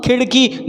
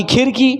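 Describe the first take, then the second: First: खिड़की as "khiṛki", with a retroflex flap; flapped ड़. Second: खिड़की mispronounced as "khirki", simple r; plain र for ड़. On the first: Teacher models खिड़की for learners, flapped ṛ. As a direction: flick the tongue back and off on the ड़ of खिड़की. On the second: Teacher shows the mistake, खिड़की as "khirki". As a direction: say खिड़की with r in place of the flap. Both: Shown as a demonstration. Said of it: "ना कि खिड़की".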